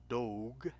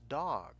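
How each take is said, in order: First: The vowel is said with a long sound. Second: The vowel is said with a short sound. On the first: The speaker calls it wrong. "it's not dog" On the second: The speaker calls it right. "it is going to have a short sound"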